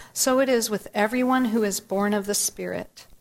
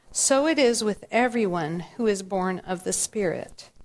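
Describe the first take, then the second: The two takes are said the same way.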